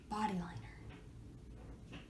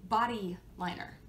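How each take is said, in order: First: Slow whisper. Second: Said in the usual way. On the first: Shown as a demonstration. Repeats name in whisper.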